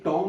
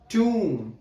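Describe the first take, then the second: First: The vowel is an open 'o' sound. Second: The vowel is a long 'oo' sound. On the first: The speaker calls it wrong. "ये टॉम नहीं बोलेगा" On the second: The speaker calls it right. "ट्यूम होगा"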